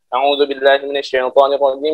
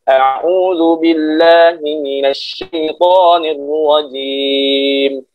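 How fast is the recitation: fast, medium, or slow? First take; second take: fast; medium. First: It is recited very quickly. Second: It is recited at a moderate pace. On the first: Quick repetition for memorizing. "dengan cara hadar" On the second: A standard pace between slow and fast. "Kalau tadwir agak cepat sedikit"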